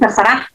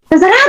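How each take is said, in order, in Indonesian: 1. Diucapkan dengan datar dan cuek. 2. Diucapkan dengan nada putus asa dan lelah. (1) "Mungkin udah agak cuek di sana" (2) "Di sana ada depresi"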